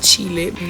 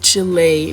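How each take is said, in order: First: The name is said with an English pronunciation. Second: The name is said with a Spanish pronunciation. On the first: The speaker calls it wrong. "not Chile" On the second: The speaker calls it right. "I'm gonna call this country Chile"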